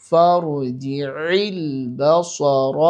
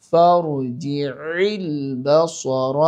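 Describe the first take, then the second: Both takes have the same delivery.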